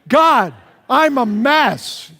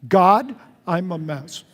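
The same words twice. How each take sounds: First: It is said with enthusiasm and excitement. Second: It is said in a plain, calm tone.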